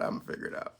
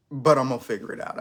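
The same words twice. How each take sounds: First: Soft unvoiced whisper. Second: Said in the usual way. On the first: Real, not acted. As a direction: breathe it as a whisper. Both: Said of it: "You should do A S M R".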